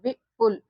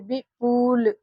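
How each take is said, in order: First: The second-syllable vowel is short. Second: The second-syllable vowel is long. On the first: The speaker calls it right. "विपुल पढ़ते हैं" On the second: The speaker calls it wrong. "प में बड़ा ऊ की मात्रा लगा कर पढ़ते विपुल, इसका उच्चारण होगा"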